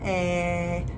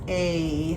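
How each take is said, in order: First: The vowel is a short 'eh' sound. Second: The vowel is a long 'ay' sound. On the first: The letter has no line over it. "if it doesn't have a line, it would be pronounced like eh" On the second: The letter has a line over it. "pronounce the letter A when it's written that way as A, like eight"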